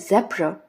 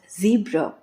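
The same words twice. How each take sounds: First: It is said with a British accent. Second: It is said with an American accent. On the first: "while zebra in British" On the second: "is pronounced as zebra in American"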